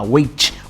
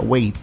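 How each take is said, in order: First: The T sound is heavy and strong. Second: The T sound is light and soft. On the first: This is how people from Rio usually say it. The speaker calls it wrong. "com T muito pesado" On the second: This is how native English speakers say it. The speaker calls it right. "eles falam um T muito mais leve"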